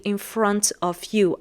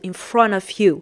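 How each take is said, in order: First: Each word is said fully and separately. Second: The words are reduced and run together. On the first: The speaker calls it wrong. "I didn't say" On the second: The speaker calls it right. "I said"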